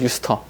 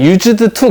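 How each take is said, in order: First: It is said as one joined word. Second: It is said as two separate, fully pronounced words. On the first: The speaker calls it right. "한 단어처럼 기억하세요" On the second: The speaker calls it wrong. "그렇게 읽지 않아요"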